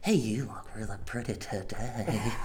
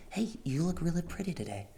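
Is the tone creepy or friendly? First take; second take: creepy; friendly. First: It is said in a creepy, suggestive tone. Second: It is said in a plain, friendly tone.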